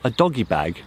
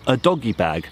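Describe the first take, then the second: First: It is said with a plain English accent. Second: It is said with a French accent.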